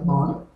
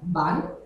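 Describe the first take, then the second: First: The vowel is strongly nasalized. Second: The vowel is plain, not nasalized. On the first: This is the Rodrigues Creole form. "dans Créole Rodrigue nous dit bon" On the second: This is the Mauritian Creole form. "dans Créole Mauricien nous dit ban"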